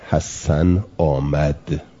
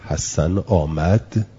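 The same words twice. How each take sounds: First: The pitch falls at the end. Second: The pitch rises at the end. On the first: It reports that Hasan has come. "این الان خبره" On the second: It asks whether Hasan has come. "این استفهامه"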